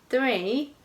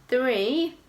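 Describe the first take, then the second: Both takes have the same delivery.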